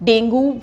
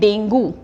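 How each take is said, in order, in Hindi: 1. यह शब्द "oo" ध्वनि पर खत्म होता है। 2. यह शब्द "oo" ध्वनि पर खत्म होता है।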